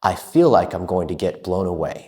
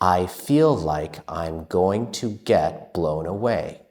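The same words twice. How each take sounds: First: It is spoken at a fast, fluent pace. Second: It is spoken at a moderately quick pace. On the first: "And now, faster" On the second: "Let's say it faster"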